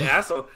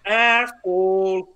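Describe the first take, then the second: First: Said in the usual way. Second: Long, drawn-out mock Canadian accent. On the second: Podcaster mimics how wrestlers said it, exaggerated Canadian accent. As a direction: stretch it slowly in an imitated Canadian accent. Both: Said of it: "the so Canadian way they said it".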